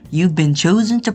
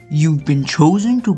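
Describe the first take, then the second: First: It is read in the speaker's ordinary voice. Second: It is read in a put-on dramatic voice.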